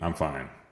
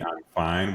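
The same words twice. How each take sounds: First: It is said in a curt, dismissive tone. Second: It is said in a warm, pleasant tone. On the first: Something is wrong despite the words. "it's very dismissive" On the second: The person is genuinely okay. "with a very pleasant tone"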